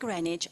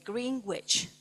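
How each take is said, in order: First: The word is not pronounced the way it's spelled. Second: The word is pronounced just as it's spelled. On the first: The speaker calls it right. "instead of saying Greenwich" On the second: The speaker calls it wrong. "I connected the rules to spelling"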